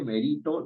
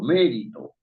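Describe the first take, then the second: First: The stress is on the middle syllable. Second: The stress is on the first syllable. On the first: The speaker calls it wrong. "Uno no dice merito" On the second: The speaker calls it right. "la fuerza de la voz está en me"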